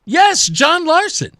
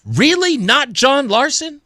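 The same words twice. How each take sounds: First: Higher, drawn-out yes with a rising end; emphatic confirmation. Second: Incredulous question, stretched on the name; stunned disbelief. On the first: Host answering stunned listeners, emphatically confirming. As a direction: confirm it slowly and pointedly. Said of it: "And I'm going". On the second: Stunned listeners reacting to the news, mock incredulous. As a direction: question it as if you can't believe it. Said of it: "I'm stunned. I'm sure that many of you are". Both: Acted.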